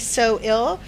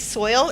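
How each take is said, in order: First: The name is said as two syllables. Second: The name is said as one syllable. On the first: "or it could be so ill" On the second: "It could be soil if you put them together"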